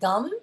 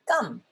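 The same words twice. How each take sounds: First: The first consonant is plain and relaxed. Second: The first consonant is tight and tensed. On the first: The speaker calls it wrong. "So it's not gum" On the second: The speaker calls it right. "it's gum"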